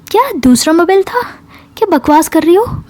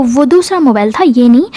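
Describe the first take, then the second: First: High-pitched disbelieving question; incredulous challenge. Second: Mildly protesting statement; defensive excuse. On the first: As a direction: pounce on the excuse in disbelief. Friend disbelieves the new excuse. (अविश्वास से, ऊँचे सुर में सवाल) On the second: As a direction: offer it as an explanation, only slightly raised. Cornered friend offers another excuse. (हल्की सफ़ाई देते हुए) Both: Retold or imitated.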